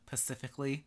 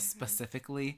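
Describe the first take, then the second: First: The word begins with a p sound. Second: The word begins with an sp sound. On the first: The speaker calls it wrong. "she would also say um pacifically" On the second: The speaker calls it right. "instead of specifically"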